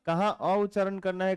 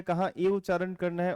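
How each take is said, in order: First: अ said as a short open "uh" sound; short a vowel. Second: ए said as a clear "ay"; e vowel. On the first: Teacher showing the class the अ vowel, said as a short "uh". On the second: Teacher contrasting for the class the ए vowel, said as "ay". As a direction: sound out ए as a clear long "ay". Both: Shown as a demonstration.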